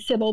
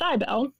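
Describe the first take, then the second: First: The name sounds like the English name Sybil. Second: The name is said in the Cybele form. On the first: The speaker calls it wrong. "I was pronouncing wrong. I was saying Sybil" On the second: The speaker calls it right. "but it's Cybele"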